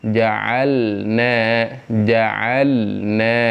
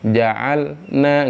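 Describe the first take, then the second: First: "ja'alna" with the l held moderately; correct reading. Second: "Ja'alna" with the lam cut short; wrong reading. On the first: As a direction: model tajwid reading. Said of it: "kasih dia sifat bainiyah". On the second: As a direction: clip the l in "Ja'alna" before the n comes out. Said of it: "nggak boleh". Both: Shown as a demonstration.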